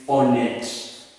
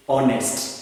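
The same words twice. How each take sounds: First: Honnête ending in a plain T, no S; French, S omitted. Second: Honest with a clear S before the final T; English, S pronounced. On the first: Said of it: "have to omit that S". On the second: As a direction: say "honest" keeping the ST ending. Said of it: "a French person cannot say". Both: Shown as a demonstration.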